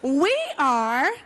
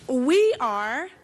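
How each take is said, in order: First: It is said with more energy. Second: It is said with ordinary energy.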